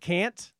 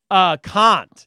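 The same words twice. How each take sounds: First: The word is said with an American accent. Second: The word is said with a British accent. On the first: This is the usual local way to say it. "instead of can't" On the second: This is how the child used to say it. "she would say, can't"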